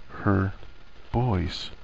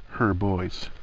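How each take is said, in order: First: Put-on "Her boys" split by a long pause; weighted pause. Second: Said in the usual way. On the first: A narrator's reading. Narrator dwelling on Hermione's realization, "Her boys" slow and separated. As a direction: say "Her", wait, then drop "boys" quietly.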